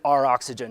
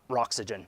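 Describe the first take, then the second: First: The letter R is said separately before oxygen. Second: The R is blended into one word, rocks-ygen. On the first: The speaker calls it right. "it's always been R oxygen" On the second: The speaker calls it wrong. "not Roxygen"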